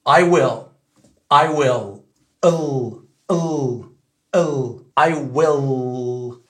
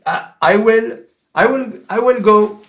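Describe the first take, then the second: First: I will with a dark American L; I will à l'américaine. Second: I will with a light French L, higher and louder; will with a clear French L; will avec un L français; French-sounding L. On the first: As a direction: stretch the L, dark and slow. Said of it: "Si tu dis à l'américaine". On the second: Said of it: "le L, il a sonné français". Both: Shown as a demonstration.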